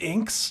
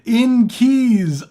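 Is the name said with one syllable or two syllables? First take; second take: one syllable; two syllables. First: The name is said as one syllable. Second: The name is said as two syllables. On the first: The speaker calls it wrong. "is it pronounced inks? ... or am I stupid?" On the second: The speaker calls it right. "It's in in keys. ... That makes way more sense"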